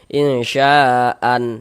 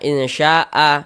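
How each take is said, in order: First: The word ends with a short 'an' sound. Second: The word ends on a drawn-out 'a' vowel. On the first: The speaker calls it wrong. "jangan, salah" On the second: The speaker calls it right. "Ini kita baca insya'a"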